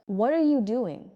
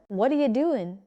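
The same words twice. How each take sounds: First: "What are you doing" word by word; careful, unblended "What are you doing"; clear and separate. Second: "What are you doing" run together as whatcha or whaddaya doing; casual connected "What are you doing"; blended words. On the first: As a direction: sound "are" and "you" fully. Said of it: "say it clearly and separately first". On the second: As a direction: weaken "are you" into one blur. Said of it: "Now blend the words together". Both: Shown as a demonstration.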